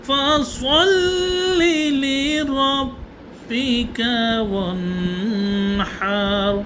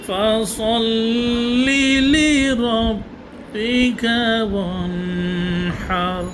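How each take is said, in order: The two takes are said the same way.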